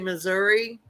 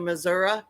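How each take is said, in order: First: Missouri is pronounced the way outsiders say it. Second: Missouri is pronounced the way locals say it. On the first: The speaker is not from the area. The speaker calls it wrong. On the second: The speaker is from the area. The speaker calls it right.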